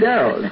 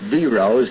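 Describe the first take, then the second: First: The name is pronounced in a lazy way. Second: The name is pronounced carefully and precisely. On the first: The speaker calls it wrong. "It's a lazy way of doing it" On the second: The speaker calls it right. "the correct pronunciation is D-Rose"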